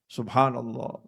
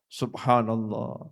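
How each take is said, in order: No difference in how they are said.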